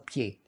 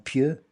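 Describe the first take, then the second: First: The word ends with an 'ay' vowel. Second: The word ends with an 'euh' vowel. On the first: The speaker calls it wrong. "qui prononce très mal" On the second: The speaker calls it right. "Au lieu de dire ils sont pieux"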